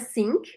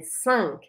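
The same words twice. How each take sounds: First: The vowel is pronounced as an 'i' sound. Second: The vowel is nasal, with no 'i' sound. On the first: The speaker calls it wrong. "Não é cinq" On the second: The speaker calls it right. "Abre um sorrisão e não fala o i"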